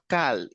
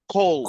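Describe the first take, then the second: First: The word is said with the vowel of 'cal'. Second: The word is said with the vowel of 'call'. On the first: The speaker calls it wrong. "it's not cal" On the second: The speaker calls it right. "it's call"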